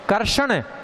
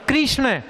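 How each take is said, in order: First: A vowel comes between the k and r. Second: The k and r join with an 'i' vowel. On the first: The speaker calls it wrong. "ये भी गलत" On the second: The speaker calls it right. "इसका उच्चारण शुद्ध करें"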